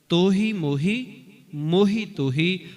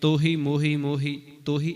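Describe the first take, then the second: First: The words are grouped as two pairs, with a break. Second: The words are not grouped as two pairs. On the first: The speaker calls it right. "ਦੋ ਪਹਿਲੇ ਸ਼ਬਦ ਤੇ ਅਗਲੇ ਦੋ ਸ਼ਬਦ ਇਸੇ ਤਰ੍ਹਾਂ ਪੜ੍ਹਨੇ ਨੇ" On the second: The speaker calls it wrong. "ਜੇ ਅੱਗੇ ਪਿੱਛੇ ਕਰਤੇ ... ਉਚਾਰਨ ਵੀ ਠੀਕ ਨਹੀਂ ... ਇਸ ਤਰ੍ਹਾਂ ਨਹੀਂ"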